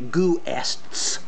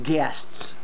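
First: An extra oo vowel follows the g. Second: No extra vowel follows the g. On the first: The speaker calls it wrong. "if you sound it out phonetically, it would be goo-ests" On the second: The speaker calls it right. "we pronounce it guests"

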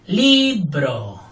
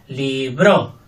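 First: The stress is on the first syllable. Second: The stress is on the second syllable. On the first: "Fuerte la primera" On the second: "Fuerte la segunda"

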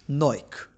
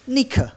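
First: The word is said in a British accent. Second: The word is said in a German accent. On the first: "the Britons, they call it" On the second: "The Germans, they call it"

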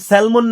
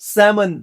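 First: The L sound is pronounced. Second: The L sound is silent. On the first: The speaker calls it wrong. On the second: The speaker calls it right.

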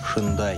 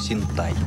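First: It begins with 'sh' and has a 'd' sound. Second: It begins with 's' and has a 't' sound. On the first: The speaker calls it wrong. "Нет в японском языке звуков ше и дэ" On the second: The speaker calls it right. "Если уж произносить, то синтай"

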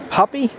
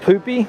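First: The word is said with an English accent. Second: The word is said with a Spanish accent.

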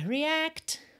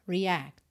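First: The final t is clearly pronounced. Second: The final t is not pronounced. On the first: "pode aparecer mais" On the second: "ou nada"

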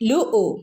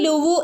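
First: A glottal stop separates the two vowels. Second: A w sound joins the two vowels. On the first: The speaker calls it right. "അവിടെ ആ ഇ ഉ എന്നുള്ള ശബ്ദം കൊടുക്കേണ്ടിയത്" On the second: The speaker calls it wrong. "ലുവു ലുവു എന്ന് ഓതരുത് കേട്ടോ"

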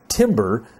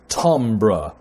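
First: The word is given a plain literal reading. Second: The word is given a French pronunciation. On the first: The speaker calls it wrong. "it looks like the word should be pronounced maybe timbre, but it's not" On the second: The speaker calls it right. "if you want to be French"

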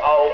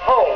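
First: The opening h sound is dropped. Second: The opening h sound is clearly sounded. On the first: The speaker calls it wrong. "Don't say home" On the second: The speaker calls it right. "don't forget to sound your H's"

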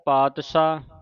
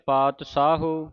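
First: It uses a 'sh' sound with no final vowel. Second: It uses a 'sh' sound and ends in 'u'. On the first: "ਕਈ ਸੰਗਤਾਂ ਤਿੰਨ ਤਰ੍ਹਾਂ ਦਾ ਉਚਾਰਨ ਕਰ ਜਾਂਦੀਆਂ" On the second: "ਕਈ ਸੰਗਤਾਂ ਤਿੰਨ ਤਰ੍ਹਾਂ ਦਾ ਉਚਾਰਨ ਕਰ ਜਾਂਦੀਆਂ"

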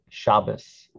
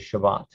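First: The word ends with an S sound. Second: The word ends with a T sound. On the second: This is the modern Hebrew pronunciation. "When we're speaking modern Hebrew, we say Shabbat"

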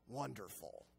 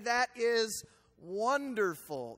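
First: It is said sarcastically, with displeasure. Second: It is said sincerely, pleased.

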